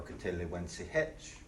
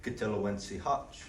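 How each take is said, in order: First: Kitelowensi Hitch, softer, with an E in Hitch; Bartlesville question form. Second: Kitelowensi Hutch with an A in Hutch; Tahlequah question form. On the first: Teacher models the other way of asking a name. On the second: Teacher models asking someone's name. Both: Shown as a demonstration. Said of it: "the next question you would say is".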